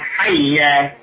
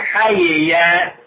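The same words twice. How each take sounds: First: The two y sounds merge into one doubled y. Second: The two y sounds are separated by a vowel. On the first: "ويجوز أن تقرأ بالإدغام" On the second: "يجوز تترك الإدغام"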